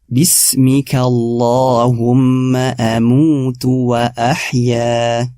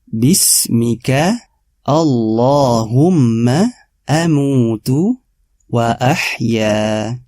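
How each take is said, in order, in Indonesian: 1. Frasa "Bismika Allahumma amutu wa ahya" dibacakan dengan kecepatan normal. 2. Frasa "Bismika Allahumma amutu wa ahya" dibacakan perlahan dan penuh penekanan.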